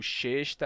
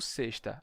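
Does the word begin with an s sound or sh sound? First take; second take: sh sound; s sound. First: The word begins with an sh sound. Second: The word begins with an s sound. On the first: The speaker calls it wrong. "Eu não posso dizer xesta" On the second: The speaker calls it right. "só pode ser s"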